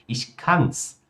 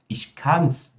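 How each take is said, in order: Both takes have the same delivery.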